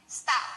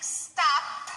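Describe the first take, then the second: First: "stop" with no P at all, ending on the vowel like "sto"; dropped final P. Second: "stop" with the final P fully released, lips opening with a puff of air; correct stop. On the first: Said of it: "and not say any sound at the end". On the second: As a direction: say "stop" and pop the P at the end. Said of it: "instead of saying stop". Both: Shown as a demonstration.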